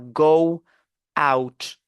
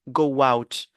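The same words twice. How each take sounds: First: The two words are said separately, without a glide. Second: A w glide links the two words together. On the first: The speaker calls it wrong. "nous avons lu séparément les mots" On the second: The speaker calls it right. "Mais on dira quoi?"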